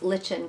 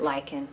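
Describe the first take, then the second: First: Lichen with a "ch" sound, LITCH-en. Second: Lichen with a hard "k", LIKE-en. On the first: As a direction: say lichen to rhyme with kitchen. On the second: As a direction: say lichen just like "liken". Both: Shown as a demonstration. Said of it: "Do you pronounce lichen, lichen or lichen".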